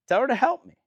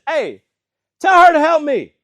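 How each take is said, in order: First: Said in the usual way. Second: High, very loud exasperated yell; acted shout of a fed-up sister; frustrated outburst. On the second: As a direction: explode in hammed-up frustration. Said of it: "finally she gets frustrated".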